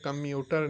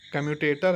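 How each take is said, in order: First: The word is said with three syllables. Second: The word is said with four syllables. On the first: The speaker calls it wrong. "कम्यूटर नहीं" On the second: The speaker calls it right. "कम्यूटेटर है भैया"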